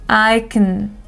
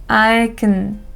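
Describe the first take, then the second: Both takes have the same delivery.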